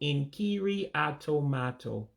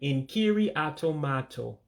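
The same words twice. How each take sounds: First: The phrase is said slowly. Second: The phrase is said at normal speed.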